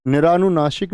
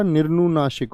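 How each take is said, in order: First: निरानुनासिक with a long raa; wrong pronunciation. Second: निर्नुनासिक with r straight into n; no vowel after the r in निर्नुनासिक; corrected pronunciation. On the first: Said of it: "नहीं होता". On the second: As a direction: say निर्नुनासिक as nir-nu-naasik. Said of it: "होता है". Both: Shown as a demonstration.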